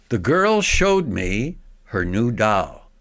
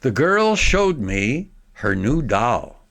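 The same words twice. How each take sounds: The two takes are said the same way.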